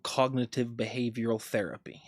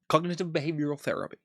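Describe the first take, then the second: First: It is said very slowly. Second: It is said a bit faster.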